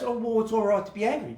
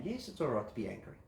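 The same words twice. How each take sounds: First: Quick offhand voicing of someone upset; upset person, voiced lightly and fast; fast, light quote of an angry person. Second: Much softer, lower, quick reassurance; a calm helper answering softly; soft validating reply. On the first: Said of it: "it just goes". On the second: Shown as a demonstration. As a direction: drop the voice low and agree gently. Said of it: "validate that anger".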